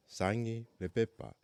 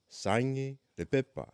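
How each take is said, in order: Both takes have the same delivery.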